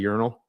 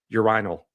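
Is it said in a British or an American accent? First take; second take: American; British. First: It is said in an American accent. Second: It is said in a British accent.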